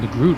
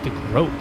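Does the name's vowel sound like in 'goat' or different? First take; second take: different; goat. First: The name's vowel does not sound like 'goat'. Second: The name's vowel sounds like in 'goat'. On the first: The speaker calls it wrong. "I keep calling him the Groot" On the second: The speaker calls it right. "according to your pronunciation"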